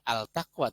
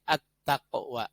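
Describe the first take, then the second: First: The L is clearly pronounced before the T. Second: The L merges into a doubled T sound. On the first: The speaker calls it wrong. "bukan al-taqwa" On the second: The speaker calls it right. "alif lamnya lebur masuk ke huruf ta"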